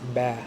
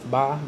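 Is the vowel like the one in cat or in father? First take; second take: cat; father. First: The vowel is front and flat, as in cat. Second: The vowel is open and back, as in father. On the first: "but in Arabic, it's ba ... ah, like for cat" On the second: "In Hebrew, it's pronounced ba ... it's ah for father"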